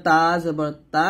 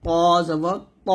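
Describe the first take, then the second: First: "তা জবর তা" spelt out with a thin, light "তা"; thin letter. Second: "প জবর প" spelt out slowly with a thick "প"; thick letter. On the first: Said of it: "পাতলা করে উচ্চারণ করবো". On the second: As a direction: make "প" heavy and full in "প জবর প". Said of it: "মোটা করে উচ্চারণ করতে হবে এটা". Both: Shown as a demonstration.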